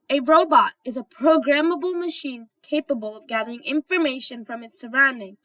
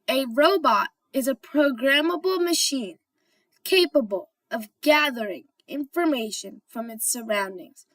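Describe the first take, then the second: First: It is said at normal speed. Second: It is said slowly.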